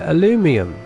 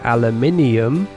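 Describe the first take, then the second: First: It lacks the extra syllable before the ending. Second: It has an extra syllable before the ending. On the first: "You call it aluminum" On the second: "We call it aluminium"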